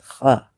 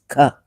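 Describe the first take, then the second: First: It starts with a rough, throaty kh sound. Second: It starts with a plain, clean k sound. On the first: "its K H to be pronounced as Kha" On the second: "but we pronounce it as Ka"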